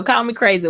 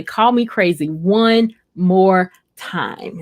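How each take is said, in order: First: Said in the usual way. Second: Slow, drawn-out mock threat; mock warning. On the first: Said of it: "Cindy Randall says". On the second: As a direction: say it slowly like a playful dare. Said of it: "And she would say".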